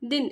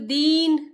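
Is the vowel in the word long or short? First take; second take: short; long. First: The vowel is said short. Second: The vowel is said long. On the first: The speaker calls it right. "छोटी ही की मात्रा जो होता है ना, वो स्लो ही पढ़ते हैं" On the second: The speaker calls it wrong. "इसको दीन ऐसे नहीं बोलेंगे"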